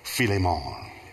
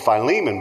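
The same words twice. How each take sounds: First: The name is said in an African way. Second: The name is said in an American way. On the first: "if you're in Africa, certain places, it's Philemon" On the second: "we call it the Book of Philemon"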